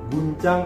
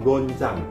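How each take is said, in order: First: The first vowel sounds like 'u'. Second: The first vowel sounds like 'o'. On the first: The speaker calls it right. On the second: The speaker calls it wrong.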